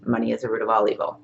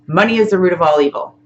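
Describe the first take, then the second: First: Softer, quick echo of the leader's line; repeating back softly. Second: Said in the usual way. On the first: Shown as a demonstration. Student echoing the teacher's tapping sentence, softly and quickly. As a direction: mumble it back fast like a follower. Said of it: "and you're gonna say". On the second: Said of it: "I'm gonna say something like".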